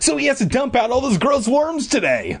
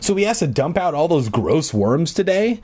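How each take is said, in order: First: It is said as an exclamation. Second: It is said as a question.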